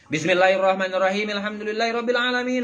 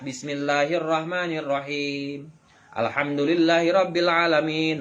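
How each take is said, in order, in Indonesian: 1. Ayat-ayatnya bersambung tanpa jeda. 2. Ada jeda setelah setiap ayat. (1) "diwasolkeun kabeh" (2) "Bacalah Quran dengan sapotong sapotong. Maksudnya itu saayat saayat"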